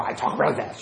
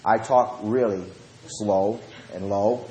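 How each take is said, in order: First: Quick, run-together words; fast talking. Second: Unhurried, lowered voice; slow right down and drop the pitch; slow and low. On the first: Preacher admitting how he talks when preaching, fast. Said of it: "As you can tell, I talk really fast". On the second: Preacher showing how he answers yelling, slow and low. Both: Shown as a demonstration.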